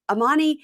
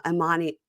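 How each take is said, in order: First: "Amani" pitched higher and a bit louder, like calling her over; a lifted, exclaiming "Amani"; raised call. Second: Said in the usual way. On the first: Retold or imitated. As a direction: call out "Amani" with mock urgency. Calling the name twice.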